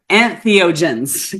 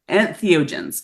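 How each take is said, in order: First: The word is carefully and clearly enunciated. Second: The word is slurred and loosely enunciated. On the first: The speaker calls it right. "let me try that one more t- type" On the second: The speaker calls it wrong. "My my Utah accent sometimes doesn't enunciate"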